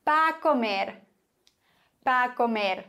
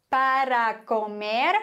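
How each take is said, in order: First: "para" shortened to "Pa"; quick "pa comer" with the r dropped; clipped pa. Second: Slow "para" with both syllables; careful "para comer"; full para. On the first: Teacher showing the casual form: clipped "Pa". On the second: Teacher giving the full form: slow "para". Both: Shown as a demonstration. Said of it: "Para, pa".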